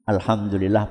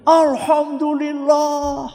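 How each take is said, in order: First: Said in the usual way. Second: Seruan syukur yang panjang dan bernada tinggi; suami lega. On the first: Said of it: "Dokter itu menemui si suami". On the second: Acted. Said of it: "kata siapa? Bapak". (seruan lega seorang bapak, suaranya melengking panjang: seruan syukur bapak yang lega dan dipanjangkan)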